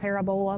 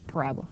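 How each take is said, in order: First: It is pronounced just as it is spelled. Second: It is pronounced the usual spoken way. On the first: The speaker calls it wrong. "I know it's like how you spell it" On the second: The speaker calls it right. "but it's parabola"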